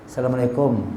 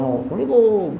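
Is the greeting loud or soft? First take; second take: soft; loud. First: The greeting is said quietly and gently. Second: The greeting is called out loudly. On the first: The person is greeted from close by. The speaker calls it right. "dekat baru pelan-pelan aja" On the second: The person is called from far away. The speaker calls it wrong. "Orang jauh-jauh kan"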